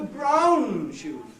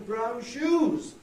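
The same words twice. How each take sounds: First: The stress falls on the word brown. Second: The stress falls on the word shoes. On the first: The speaker calls it right. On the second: The contrast seems to be between shoes and something else. The speaker calls it wrong.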